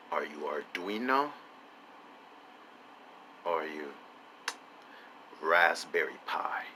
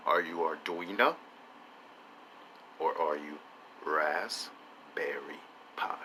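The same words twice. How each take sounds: First: Soft question ending in a whisper on Raspberry Pi; quiet mock-mysterious ask; hushed question. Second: Soft ask, Raspberry Pi drawn out slowly in a whisper; drawn-out whispered repeat; slower hushed repeat. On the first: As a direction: drop to a secretive hush. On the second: Acted. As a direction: repeat it slower and more secretive. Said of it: "I ask you again".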